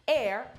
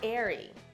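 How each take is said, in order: First: The name is said as one syllable. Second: The name is said as two syllables. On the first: The speaker calls it right. "how to properly pronounce the new name" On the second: The speaker calls it wrong.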